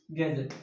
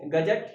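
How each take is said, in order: First: गैजेट said as English gadget, with a z-like ज़; English pronunciation. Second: गजट said with a plain ज, slowly; read without nukta. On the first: Teacher shows exam students the English way, with ज़. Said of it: "नुक्ता की वजह से बोलने में प्रभाव होता है". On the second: Teacher shows students the reading without a nukta, slowly. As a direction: sound out गजट slowly with a hard ज, as if there were no nukta. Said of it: "अगर नुक्ता नहीं होता तो मैं इसको पढ़". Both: Shown as a demonstration.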